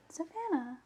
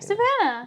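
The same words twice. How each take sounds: First: The name is said flatly with little energy. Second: The name is said brightly with more energy. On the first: The speaker calls it wrong. "I just didn't put enough oomph into it" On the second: The speaker calls it right. "Say that more enthusiastically"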